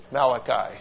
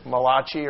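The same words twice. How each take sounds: First: Malachi said MAL-uh-kye, stress first, ending in kye; second pronunciation. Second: Malachi said muh-LAH-chee, ch sound, stress on second syllable; first pronunciation. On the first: A preacher correcting himself to MAL-uh-kye. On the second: A preacher trying one reading of Malachi. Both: Shown as a demonstration. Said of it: "I don't know how you say it".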